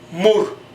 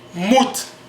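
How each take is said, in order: First: The word ends with an r sound. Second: The word ends with a t sound. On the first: "prononcer le T comme un R" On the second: "on écrit mout"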